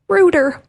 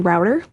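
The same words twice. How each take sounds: First: The first vowel sounds like the word boot. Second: The first vowel sounds like the word out.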